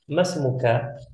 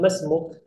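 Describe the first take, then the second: First: The word ends with a full final vowel. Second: The final vowel is dropped, ending on a consonant. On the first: "kita tidak perlu bilang" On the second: "Kita cukup bilang"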